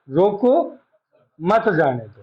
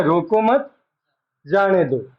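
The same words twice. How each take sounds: First: "रोको", clear break, then "मत जाने दो"; pause after रोको. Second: "रोको मत", clear break, then "जाने दो"; group रोको with मत, pause, then जाने दो; pause after मत. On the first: Teacher showing the opposite meaning by comma, pause after रोको. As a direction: stop after रोको, run मत जाने दो together. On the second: Teacher showing what a comma changes, pause after मत. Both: Shown as a demonstration. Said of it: "यहाँ coma लगाता हूँ".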